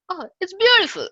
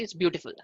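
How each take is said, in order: First: It is said with excitement and feeling. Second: It is said flatly, without much feeling.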